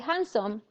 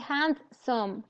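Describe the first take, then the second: First: A consonant in the middle is dropped. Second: Every consonant in the middle is fully pronounced. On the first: The speaker calls it right. "you say handsome" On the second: The speaker calls it wrong. "You don't say handsome"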